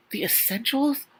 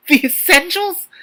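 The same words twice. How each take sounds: First: Incredulous repeat. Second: Much higher, louder, slower squeal; shocked disbelief. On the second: Reader squealing in disbelief at the book's wording. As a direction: stretch it out in outraged disbelief. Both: Real, not acted.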